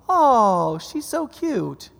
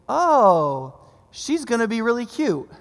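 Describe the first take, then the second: First: It is said very fast, words run together. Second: It is said at normal speed.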